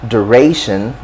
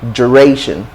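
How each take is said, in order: First: It begins with a plain d sound. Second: It begins with a j-like sound. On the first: "American English"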